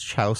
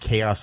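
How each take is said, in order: First: The word is said as a misreading of its spelling. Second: The word is said with its usual pronunciation. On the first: The speaker calls it wrong. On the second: The speaker calls it right.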